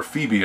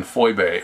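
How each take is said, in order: First: Said in the usual way. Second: Phoebe said as FOY-bay; original pronunciation. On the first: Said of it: "as we would say it". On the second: Shown as a demonstration. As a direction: give Phoebe an oy sound and end on bay. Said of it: "or Phoebe as we would say it".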